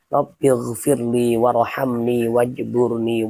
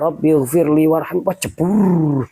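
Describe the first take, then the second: First: Every word keeps its full final ending. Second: The final endings of two words are dropped. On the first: The speaker calls it right. "itu bacaan yang benar kan seperti ini" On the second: The speaker calls it wrong. "seperti orang loncat ke dalam sungai"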